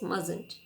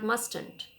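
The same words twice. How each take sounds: First: The first T sound is silent. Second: The first T sound is pronounced. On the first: The speaker calls it right. "Here T is silent" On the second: The speaker calls it wrong. "It is not mustn't"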